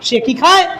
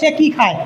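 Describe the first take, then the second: First: It is said with a questioning tune. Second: It is said flat, like a statement. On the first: The speaker calls it right. "প্রশ্ন করার মধ্যে একটা ভাব চলে আসবে" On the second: The speaker calls it wrong. "এখানে কথা যাবে না যে সে কি খায়, এরকম কিন্তু হবে না।"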